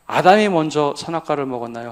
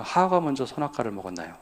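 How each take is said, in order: First: 아담이 punched, louder question; stress on Adam. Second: 하와가 stressed, easier level; stress on Eve. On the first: Pastor quizzing the congregation, stressing 아담이. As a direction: lean on 아담이 as the one who ate first. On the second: Pastor asking the congregation again, stressing 하와가. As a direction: shift the weight onto 하와가. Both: Shown as a demonstration.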